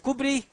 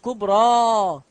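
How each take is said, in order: First: The word ends with a long i vowel. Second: The word ends with a long a vowel. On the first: The speaker calls it wrong. "هل أنا قلت كبري؟" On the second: The speaker calls it right. "أنا قلت كبرى. انظر إلى الألف واستمع إليها"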